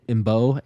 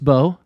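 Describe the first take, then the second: First: The M is sounded as a separate syllable. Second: The M is not sounded as its own syllable. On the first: The speaker calls it wrong. "do I pronounce the M because the M is before" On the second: The speaker calls it right. "but it's Marcus Bow"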